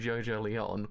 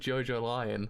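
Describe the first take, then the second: First: The last word sounds like 'Lee-on'. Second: The last word sounds like the animal 'lion'. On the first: This is how the speaker says the name. "I say Jojo Leon" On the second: This is how most people say the name. "everyone says Jojo Lion"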